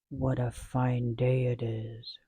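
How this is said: It is said in a deep growling voice.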